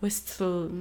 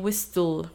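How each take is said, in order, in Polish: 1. Dźwięk T jest wyraźnie wymawiany. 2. Dźwięk T jest wyraźnie wymawiany.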